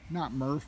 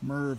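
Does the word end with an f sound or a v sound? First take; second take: f sound; v sound. First: The word ends with an f sound. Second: The word ends with a v sound. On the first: The speaker calls it wrong. "Merv, not Murph" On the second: The speaker calls it right. "Not Murph, Merv 8"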